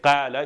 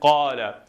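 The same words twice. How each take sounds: First: The first vowel is a light, front 'a'. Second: The first vowel is a deep, back 'ah'. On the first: The speaker calls it wrong. "You don't say" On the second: The speaker calls it right. "have the sound of ah"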